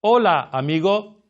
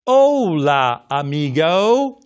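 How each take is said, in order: First: "Hola, amigo." with short crisp pure vowels; native Spanish. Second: "Hola, amigo." with long drawn English vowels, "amigo" ending in "oh-oo"; English-accented Spanish. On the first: Shown as a demonstration. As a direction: say it like a native, vowels clipped clean. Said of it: "What a native speaker would say is". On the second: Retold or imitated. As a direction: say it like a gringo, vowels stretched and gliding. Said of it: "That's not Spanish".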